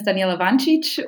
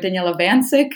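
First: The name is said with Serbian pronunciation. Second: The name is said with American English pronunciation. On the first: This is the name's original form. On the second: This form is adapted for American listeners.

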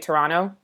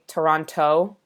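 First: Toronto is said with a Canadian local pronunciation. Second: Toronto is said with an American pronunciation. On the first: "you guys say Toronto" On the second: "Americans say Toronto"

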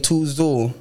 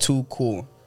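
First: The second word begins with a z sound. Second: The second word begins with a k sound. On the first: The speaker calls it wrong. "I might say too zool" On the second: The speaker calls it right. "is pronounced too cool"

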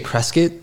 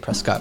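First: The name is said the way locals say it. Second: The name is said the way outsiders say it. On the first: The speaker is from the town. The speaker calls it right. "we say Prescott. That's like the local pronunciation" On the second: The speaker is not from the town. The speaker calls it wrong. "if you say Prescott, we know you're not from Prescott"

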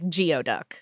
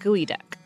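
First: The first part sounds like 'gee-oh'. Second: The first part sounds like 'gooey'. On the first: The speaker calls it wrong. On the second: The speaker calls it right.

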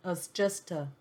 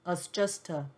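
First: The vowels are weakened into short neutral sounds. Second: The vowels are weakened into short neutral sounds.

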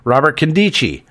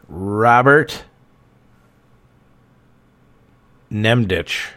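First: The surname begins without an N sound. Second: The surname begins with an N sound.

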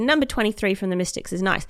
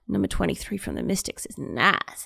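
First: It is said as plain praise of her playing. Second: It is said in a suggestive, leering way.

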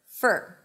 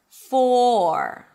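First: It has a short schwa vowel before R. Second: It has a long, rounded OR vowel. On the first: The word is unemphasized in the sentence. "when the word for is unstressed ... the for is reduced to fur" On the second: The word carries emphasis in the sentence. "when the word is stressed, you want to make sure that you hear the O sound"

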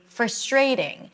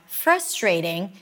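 First: The stress is on the second syllable. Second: The stress is on the first syllable. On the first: The speaker calls it wrong. "you may say frustrating" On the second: The speaker calls it right. "instead of saying something like frustrating"

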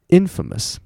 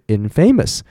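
First: The stress is on the first syllable. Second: The stress is on the second syllable. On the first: The speaker calls it right. "它是念infamous。它的重音会不一样" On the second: The speaker calls it wrong. "所以infamous 不对"

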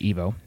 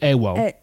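First: The name is said the speaker's own way. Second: The name is said the Thai way. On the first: "I say Evo" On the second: "Thais pronounce my name Ewo"

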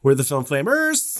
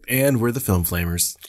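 First: It sounds upbeat with more bounce. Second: It sounds resigned and flat.

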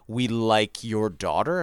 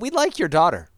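First: It is said in a menacing, suggestive way. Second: It is said lightly and charmingly. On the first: Something sinister is implied. "They really say, like, ... what are you implying there?" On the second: It is a harmless remark. "that kind of charming lightness that I have"

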